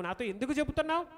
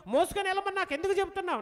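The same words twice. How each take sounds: First: Said in the usual way. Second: Fast exasperated ఎందుకు; exasperated plea. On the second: Acted. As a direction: rush the question ఎందుకు చెబుతున్నావు, pushing ఎందుకు up. Moses' complaint, repeated stronger.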